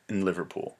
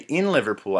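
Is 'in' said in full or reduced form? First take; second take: reduced; full. First: The word 'in' is said weakly and reduced. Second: The word 'in' is said fully and strongly. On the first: The speaker calls it right. "I said in Liverpool" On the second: The speaker calls it wrong. "I didn't say in Liverpool"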